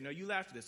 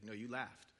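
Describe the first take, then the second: First: Said in the usual way. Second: Chuckling, tease her gently; amused insistence. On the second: Retold or imitated. Lord insisting to Sarah.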